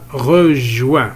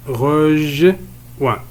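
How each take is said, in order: First: "rejoint" said carefully as one word; word modelled whole. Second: "Rejoint" broken into rej and oint with a gap; split into syllables. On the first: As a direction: clear teacher's reading of "rejoint". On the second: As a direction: sound out "Rejoint" slowly in two parts. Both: Shown as a demonstration. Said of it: "الصوت الثاني هو".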